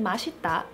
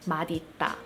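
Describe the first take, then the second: First: The middle consonant sounds like s. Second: The middle consonant sounds like d. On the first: This is how people actually say it. "everyone just pronounces it" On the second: The two parts are treated as separate words. "the correct way to pronounce this is actually"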